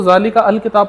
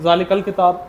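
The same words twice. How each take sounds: First: ज़ालिका अल किताब with the अल said separately; teacher shows the wrong reading ज़ालिका अल किताब; wrong split. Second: ज़ालिकल किताब run together, the hamza dropped; teacher models ज़ालिकल किताब said smoothly; correct joining. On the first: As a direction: break it apart as ज़ालिका, then अल किताब. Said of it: "नहीं पढ़ता". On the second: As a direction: join ज़ालिकल किताब as one flow, no break before अल. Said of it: "ज़रा अदा करके मुझे बता दें". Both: Shown as a demonstration.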